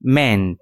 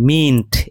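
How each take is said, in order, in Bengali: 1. স্বরধ্বনিটি হ্রস্ব e ধ্বনি। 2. স্বরধ্বনিটি দীর্ঘ ee ধ্বনি। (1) "এর উচ্চারণ হয় মেন্ট" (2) "এর উচ্চারণ কিন্তু মিন্ট এরকম নয়"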